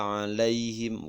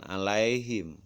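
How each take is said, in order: First: "alaihim" with lai closing on i; correct glide. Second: "alaihim" said a-la-e-him; wrong glide. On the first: Teacher recites the correct "alaihim", with a clean i glide. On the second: Teacher shows the mistake "alaihim", with e for i. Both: Shown as a demonstration. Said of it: "bukan alaihim".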